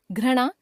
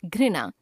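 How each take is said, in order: First: घृणा as "ghra-na"; mispronounced ri. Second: Said in the usual way. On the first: Shown as a demonstration. Teacher showing a common error, घृणा with ra for ri. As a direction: put "ra" for "ri" in घृणा. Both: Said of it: "र, री संबंधी अशुद्धियां".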